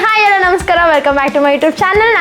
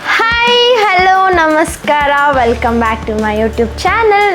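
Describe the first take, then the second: First: The greeting is said at a faster pace. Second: The greeting is said at a slow pace. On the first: The speaker calls it right. "Take number ಟು ಸ್ವಲ್ಪ ಫಾಸ್ಟಾಗಿ ಹೇಳಬೇಕು" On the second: The speaker calls it wrong. "Intro light slow ಹೇಳಿದ್ರೆ"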